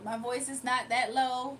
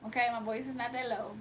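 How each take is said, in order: First: Slow down and lean on "not"; stress on not. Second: Said in the usual way. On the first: Real, not acted. Answering chat about her low voice, slow, pressing "not". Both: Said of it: "Your voice is low".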